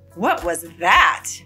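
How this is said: The question sounds defensive and challenges a rude remark. The speaker is reacting to a rude comment. "or respond defensively to a rude comment"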